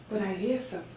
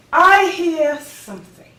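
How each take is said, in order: First: Very soft and low; soft, low, tentative noticing; hushed discovery. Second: High, strong, ringing declaration; lifted, emphatic certainty; rising conviction. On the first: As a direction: say it quietly, as if just catching a sound. First notices a new voice. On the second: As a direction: announce the discovery with conviction. Surer of the new voice. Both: Acted.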